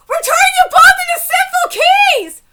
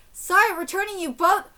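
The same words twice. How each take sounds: First: High, very loud incredulous repeat; screamed outrage, pitch way up; outraged shout. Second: Said in the usual way. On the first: Real, not acted. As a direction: yell it back in disbelief. Outraged repeat of line just read.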